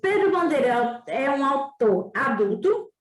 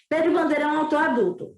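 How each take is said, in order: First: It is said as a question, rising. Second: It is said as a statement, falling.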